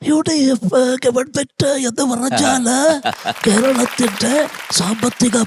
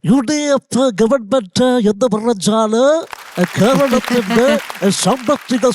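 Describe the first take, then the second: First: The voice sounds weak and frail. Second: The voice sounds lively and energetic. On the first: The person is very unwell. "തീരെ വയ്യാതെ ഇരുന്നപ്പോ ഉള്ള അദ്ദേഹത്തിന്റെ ശബ്ദം" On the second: The person is active and well. "Active ആയിരിക്കുമ്പോഴുള്ള ശബ്ദം"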